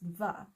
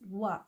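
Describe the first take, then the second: First: It starts with a v sound. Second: It starts with a w sound. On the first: The speaker calls it right. "it's pronounced va. It's got a V sound" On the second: The speaker calls it wrong. "a W is actually not pronounced wa"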